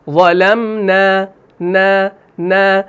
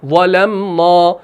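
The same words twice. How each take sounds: First: Slow ظلمنا with light repeated نا; fine long open aa in ظلمنا; correct thin alif. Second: Slow ظلمنا with a rounded final aa; full-mouthed long نا in ظلمنا; wrongly thick alif. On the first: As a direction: keep every نا of ظلمنا unrounded. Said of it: "وہ الف باریک پڑھا جائے گا". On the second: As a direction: make the نا of ظلمنا heavy and dark. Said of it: "وہاں پر نہیں کر رہے ہیں". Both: Shown as a demonstration.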